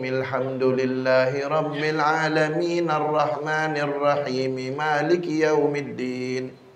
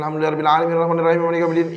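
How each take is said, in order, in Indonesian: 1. Dibaca dengan tempo sedang dan merata. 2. Dibaca sangat cepat, kata-katanya disambung-sambung. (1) "Nah, begitu sedang" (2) "Jangan terlalu cepat. ... itu tak ada tajwidnya"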